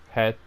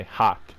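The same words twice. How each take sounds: First: "hat" pronounced close to "het"; non-American vowel in hat. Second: "hat" opened up, American style; American vowel in hat. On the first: Player showing what Americans don't say, "hat" as het. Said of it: "I think Americans don't say hat". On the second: Player guessing how Americans say it, open-voweled "hat". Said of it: "but they hat". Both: Shown as a demonstration.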